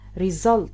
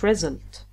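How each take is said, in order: First: The stress falls on the second syllable. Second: The stress falls on the first syllable. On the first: The speaker calls it right. "Syllable stress, which means you pronounce 1 word properly" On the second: The speaker calls it wrong. "not result"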